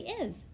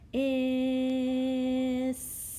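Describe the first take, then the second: First: The word is said quickly as one whole. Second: The word is stretched out slowly, sound by sound.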